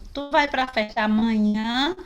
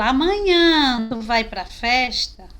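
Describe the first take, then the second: First: Said in the usual way. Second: Amanhã said slower and louder, punched; stress on amanhã. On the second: Shown as a demonstration. Teacher showing emphasis on Amanhã for the class. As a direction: lean hard on Amanhã to mark it key. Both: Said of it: "A minha entonação vai aumentar".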